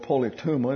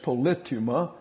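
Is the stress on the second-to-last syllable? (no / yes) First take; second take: yes; no. First: The stress is on the second-to-last syllable. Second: The stress is not on the second-to-last syllable. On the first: This is the easier English-speaker pronunciation. "We like to get the penult as our accent" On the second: This is the original Greek pronunciation. "It's polytuma in the Greek"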